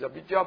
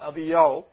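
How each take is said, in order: First: The middle consonant is a 'j' sound. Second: The middle consonant is a 'y' sound. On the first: This is how the name looks when read. "if you read that, it is Abijah" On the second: This is how the name is actually said. "but it's Abiyah"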